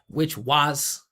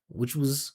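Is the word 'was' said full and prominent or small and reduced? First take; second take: full; reduced. First: The word 'was' is full, loud and pitched. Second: The word 'was' is small, low and reduced. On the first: The speaker calls it wrong. "You don't want to put that much attention on a, a function word like that" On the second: The speaker calls it right. "Just make it small, vibrating down here"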